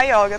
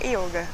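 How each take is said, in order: First: Yoga said with an open O; Brazilian yoga, open O. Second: Yoga said with a closed O; Sanskrit yoga, closed O. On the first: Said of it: "não é errado se falar yoga também". (ióga com "ó" bem aberto) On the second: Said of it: "mas o sânscrito mesmo". (iôga com "ô" fechado) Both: Shown as a demonstration.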